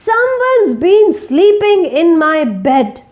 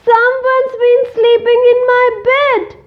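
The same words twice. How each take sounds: First: It is roared in a deep voice. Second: It is squealed in a high voice.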